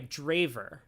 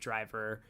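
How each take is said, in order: First: The name is said to sound like 'draver'. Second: The name is said to sound like 'driver'. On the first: The speaker calls it right. "Sorry, Draver" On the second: The speaker calls it wrong. "not pronouncing it Draver"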